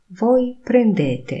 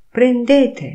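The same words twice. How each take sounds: First: Said in the usual way. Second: "Prendete" higher and louder, clipped fall; commanding tune. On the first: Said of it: "trybie oznajmującym". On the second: Shown as a demonstration. Teacher models "Prendete" as a loud, high order. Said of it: "intonacja powodują".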